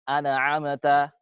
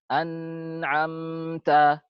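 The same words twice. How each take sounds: First: The n sound is cut off with no length. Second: The n sound is held for too long. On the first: "Antum tidak memberikan zamannya" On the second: "terlalu panjang zamannya dia"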